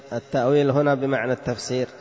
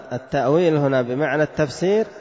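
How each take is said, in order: The two takes are said the same way.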